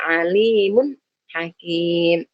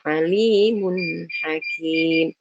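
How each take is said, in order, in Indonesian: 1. Bunyi n terputus tiba-tiba. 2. Bunyi n mengalir sebentar ke kata berikutnya. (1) "Jangan dibaca alimun hakim. Jangan diputus begitu" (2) "nun sukunnya itu mengalir tapi tidak terlalu lama"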